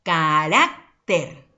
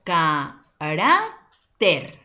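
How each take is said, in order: First: "carácter" slow and emphatic, punching rá, pause before ter; half-speed "carácter" with a strong rá; stressed middle syllable. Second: "carácter" split into ca, rá, ter; slow, separated ca... rá... ter; syllable by syllable. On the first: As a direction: pronounce "carácter" in two chunks, cará and ter. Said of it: "desde el momento en que lo pronunciamos". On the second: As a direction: sound out "carácter" slowly with a pause after each syllable. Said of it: "Si lo silabiamos". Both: Shown as a demonstration.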